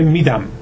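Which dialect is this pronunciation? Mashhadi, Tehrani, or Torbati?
Tehrani. It is said with a Tehran pronunciation. "تهرانی میگه"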